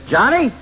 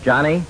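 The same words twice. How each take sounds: First: Much higher, louder yell of the name; the mother's mad voice, shouted; high sharp shout of Johnny; mad mom yell. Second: Mother calling. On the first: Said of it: "until she puts on her mad voice". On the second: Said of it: "You begin by saying". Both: Retold or imitated.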